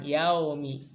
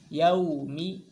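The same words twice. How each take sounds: First: "yaumi" with flat unrounded lips; unrounded wrong form. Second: "Yaumi" with rounded, pushed-out lips on yau. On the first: Teacher imitates the flat wrong vowel for students. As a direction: spread the lips as the mistake. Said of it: "bukan yaumi". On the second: Teacher shows correct lip rounding to students. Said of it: "harusnya monyong". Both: Shown as a demonstration.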